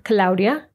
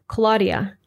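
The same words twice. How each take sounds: First: Claudia as KLOW-dyah; Spanish pronunciation. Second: Claudia as KLAW-dee-uh; English pronunciation. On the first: Teacher contrasting names between languages, Spanish Claudia. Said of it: "I'll read the Spanish pronunciation first". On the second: Teacher contrasting names between languages, English Claudia. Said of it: "followed by the English pronunciation". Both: Shown as a demonstration.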